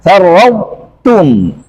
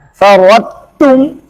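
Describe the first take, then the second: First: Farwautum very slow, heavy emphatic t; correct farwautum. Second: Farwautum slow with the emphatic quality dropped; wrong farwautum. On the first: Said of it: "harus dibaca". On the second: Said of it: "Nggak boleh dibaca". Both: Shown as a demonstration.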